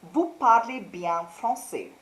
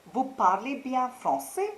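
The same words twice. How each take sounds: First: Said in the usual way. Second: "Vous parlez bien français?" rising on français as a question; questioning intonation. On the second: Shown as a demonstration. Teacher turns the second sentence into a question, rising on "français". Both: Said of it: "change your tone and put a question mark".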